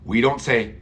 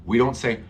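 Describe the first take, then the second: No difference in how they are said.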